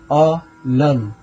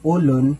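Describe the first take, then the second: First: The first vowel sounds like 'o'. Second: The first vowel sounds like 'u'. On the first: The speaker calls it right. "sa litrang O o sa tunog na O" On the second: The speaker calls it wrong. "ibang ibang ibig sabihin na yan"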